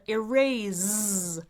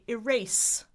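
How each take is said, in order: First: The middle consonant is a buzzing Z sound. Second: The middle consonant is a hissing S sound. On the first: "which is fine if you're speaking British English" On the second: "Americans say erase with an S like a snake rather than a Z"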